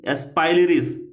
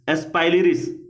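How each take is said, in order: First: The name is said as es-pai-li-ris. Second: The name is said as es-pai-li-ris.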